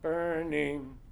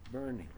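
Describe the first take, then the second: First: Both syllables are hit with equal weight. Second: The second syllable is light and barely said.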